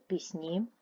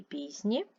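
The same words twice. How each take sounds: First: Пісні with the weight on -ні; stress on second syllable. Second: Пісні with the weight on піс-; stress on first syllable. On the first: Teacher giving the plural form, second-syllable stress on пісні. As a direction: lean on the end of пісні. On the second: Teacher giving the singular case form, first-syllable stress on пісні. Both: Shown as a demonstration. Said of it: "Наголос може змінювати значення".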